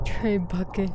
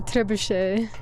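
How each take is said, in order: First: The word ends with a hard 'bucket' sound. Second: The word ends with a soft 'shay' sound. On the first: The speaker calls it wrong. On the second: The speaker calls it right.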